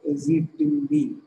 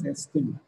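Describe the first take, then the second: First: The name is said long, ending in a b. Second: The name is said short, as estim. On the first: The speaker calls it wrong. "It is not pronounced as Azitimb" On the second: The speaker calls it right. "it is pronounced as Estim"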